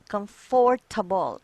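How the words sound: It is said with a Filipino-style pronunciation. The speaker calls it wrong. "That's wrong. That's Filipinism"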